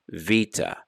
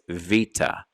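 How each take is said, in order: First: The word starts with a v sound. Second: The same.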